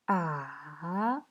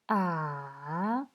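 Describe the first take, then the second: No difference in how they are said.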